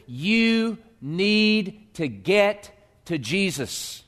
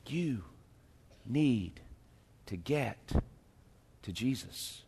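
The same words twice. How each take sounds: First: You need to get to Jesus drawn out very slow; slow emphasis. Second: You, need, to get, to Jesus, each alone and soft; word by word, hushed. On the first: Pastor hammering the main point, slow and deliberate. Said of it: "If you hear nothing else today, hear this". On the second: Pastor repeating the point softly, word by word. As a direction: whisper it out one word at a time. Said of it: "hear this". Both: Real, not acted.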